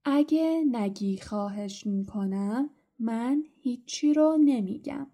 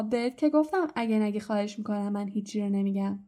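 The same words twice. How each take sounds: First: Slow, drawn-out taunt with rising phrases; haltingly, word by word. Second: Smug reminder. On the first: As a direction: tease it out in separate pieces. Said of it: "بعد اونق بریده بریده گفت". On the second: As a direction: run together in one even stream. Repeats the halting taunt, now run together. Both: A narrator's reading.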